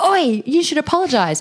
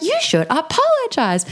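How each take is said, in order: First: High sharp mock call-out; retold call-out. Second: Much higher, slow firm demand; bigger retold demand. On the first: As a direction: call him out to apologize. Confronting a guy at bar. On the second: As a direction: stand tall and demand it. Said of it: "I got even bigger".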